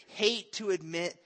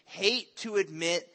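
No difference in how they are said.

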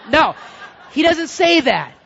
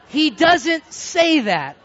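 First: Loud, high correction; raised-voice denial at normal pace; emphatic denial. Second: "doesn't" stretched out loud and high; loud, drawn-out stress on "doesn't"; emphatic slow denial. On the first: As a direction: shut the idea down forcefully. Correcting his own joke emphatically. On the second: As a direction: hammer "doesn't", slowly and forcefully. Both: Real, not acted.

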